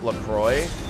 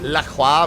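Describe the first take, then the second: First: The name is said the brand's anglicized way. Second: The name is said the French way. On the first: This is how the company says it. "the water company calls it LaCroix" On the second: This is how it is said in French. "in French doesn't La Croix mean"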